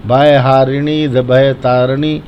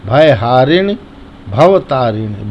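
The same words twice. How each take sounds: First: "भय तारिणी" with bhay instead of bhav; the mistaken "भय तारिणी"; common mistake. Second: "भव तारिणी" slowed, bhav clearly distinct from bhay; correct pronunciation. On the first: Retold or imitated. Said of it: "अधिकतर लोग यही बोलते हैं". (गलत उच्चारण "भय तारिणी") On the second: Shown as a demonstration. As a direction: contrast "भय हारिणी" and "भव तारिणी" clearly. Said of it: "जो लिखा है उसको पढ़ेंगे". ("भव" और "भय" साफ़ अलग बोलें)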